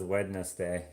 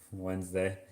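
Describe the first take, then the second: First: "Wednesday" as "WED-ness-day"; spelling pronunciation. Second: Said in the usual way. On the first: Shown as a demonstration. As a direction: sound the d in "Wednesday", three syllables. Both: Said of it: "No one says Wednesday".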